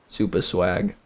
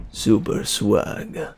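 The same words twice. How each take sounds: First: Said in the usual way. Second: Slow breathy whisper; slow whispered "Super swag". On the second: Shown as a demonstration. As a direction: whisper it slowly like a secret. Whispered repeat.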